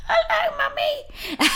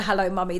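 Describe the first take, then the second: First: Put-on much higher, squeaky child's voice through a laugh; squeaky little girl. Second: Said in the usual way. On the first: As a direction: imitate a tiny girl who has lost her voice. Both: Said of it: "So this little squeaky voice".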